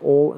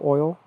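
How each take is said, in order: First: The word has a Southern local pronunciation. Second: The word has a standard general pronunciation. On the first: This is how locals say it. "people here say oil" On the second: This is how it is said elsewhere. "instead of oil"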